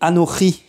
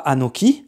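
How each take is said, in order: First: The middle consonant is a throaty ch sound. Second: The middle consonant is a hard k sound. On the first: The speaker calls it right. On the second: The speaker calls it wrong. "On ne dit pas"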